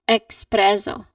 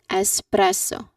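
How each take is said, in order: First: It begins with an added k sound, ex-. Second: It begins with a plain s sound, es-. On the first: The speaker calls it wrong. "people mistakenly pronounce it as espresso" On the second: The speaker calls it right. "It starts with a simple S sound"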